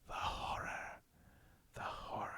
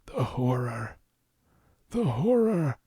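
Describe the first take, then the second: First: It is said in a soft, whispery ASMR voice. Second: It is said in a croaky old man voice.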